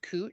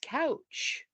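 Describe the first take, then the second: First: The vowel sounds like 'oo' in 'moon'. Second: The vowel sounds like 'ow' in 'cow'. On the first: This is how the street name is officially said. "it was spelled couch, and it was pronounced cooch" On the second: This is how the spelling seems to read. "I was like, it's couch"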